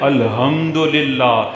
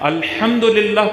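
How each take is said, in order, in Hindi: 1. 'h' एक सादी, नरम साँस है। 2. 'h' एक कर्कश, गले से निकली आवाज़ है। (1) "इस हे को कोई दो चश्मे वाला हे पढ़ ले" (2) "तमाम तारीफें अल्लाह ताला के लिए हैं"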